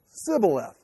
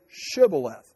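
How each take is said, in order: First: The word begins with an 's' sound. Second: The word begins with an 'sh' sound. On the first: The speaker is an Ephraimite. The speaker calls it wrong. "could not pronounce Shibboleth" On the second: The speaker is from Gilead. The speaker calls it right. "say the word Shibboleth"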